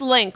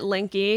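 First: The name is said with one syllable. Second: The name is said with two syllables. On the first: The speaker calls it right. "it's just Link, like Zelda" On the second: The speaker calls it wrong. "a lot of people pronounce it Linky"

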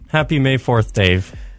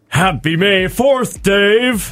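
First: It is said in a plain, flat tone. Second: It is said warmly, with more compassion.

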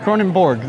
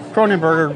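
First: The name ends with a 'borg' sound. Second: The name ends with a 'berger' sound. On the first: The speaker calls it right. "Yes, it's Kronenborg. There we go" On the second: The speaker calls it wrong. "that sounds like the appropriate pronunciation"

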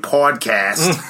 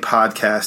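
First: It is said in a Boston accent. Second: It is said in the speaker's plain accent.

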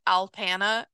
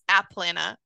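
First: The L sound comes before the P. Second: The L sound comes after the P. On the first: The speaker calls it wrong. "I was pronouncing it Alpana" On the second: The speaker calls it right. "nope, it's Aplana"

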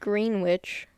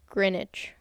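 First: It is said as spelled, with ee and w. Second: It is said without the ee and w sounds. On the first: The speaker calls it wrong. "It is spelled Greenwich" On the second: The speaker calls it right. "It has no E sound and no W sound"

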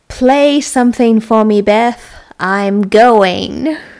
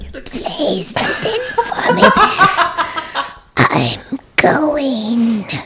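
First: It is said in a plain voice. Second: It is said in an eerie, Exorcist-like voice.

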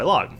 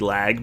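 First: The final syllable sounds like 'log'. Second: The final syllable sounds like 'lag'. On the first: This is how other people usually say the name. The speaker calls it wrong. "but everybody calls us by Log" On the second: This is how the family says the name. The speaker calls it right. "our name's actually supposed to be Lag"

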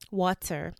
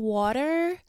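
First: The t is a clear, fully sounded t. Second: The t is a soft flap, like a d. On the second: "I caught myself saying water"

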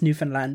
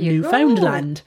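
First: The middle syllable is weak; first and last are stressed. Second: The middle syllable is fully pronounced and stressed. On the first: The speaker calls it right. "they weren't pronouncing the found. They were really pronouncing the new and land" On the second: The speaker calls it wrong. "not Newfoundland"

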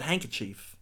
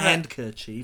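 First: The word is said without a D sound. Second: The word is said with a D sound. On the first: "I never pronounced the D. I always pronounce it" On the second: "not like"

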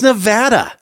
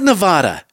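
First: It is said with the local Nevada pronunciation. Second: It is said with an East Coast pronunciation.

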